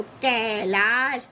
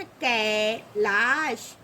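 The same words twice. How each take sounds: First: कैलाश slowly with kai and laa stretched; drawn-out ai. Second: कैलाश very slow and low, kai, gap, laash; syllable by syllable. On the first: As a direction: stretch both syllables of कैलाश. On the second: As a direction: split कैलाश after a long kai. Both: Shown as a demonstration. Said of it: "देखिए ए की मात्रा लगी ना".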